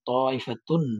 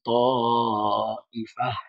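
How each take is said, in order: First: The word ends with a full -tun sound. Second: The word ends with a -ha sound. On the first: The reading continues without stopping. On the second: The reader stops at this word.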